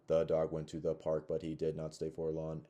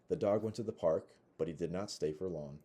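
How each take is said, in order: First: It is read haltingly with choppy phrasing. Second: It is read smoothly with natural phrasing. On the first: The speaker calls it wrong. "but disfluently" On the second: The speaker calls it right. "model the the fluency"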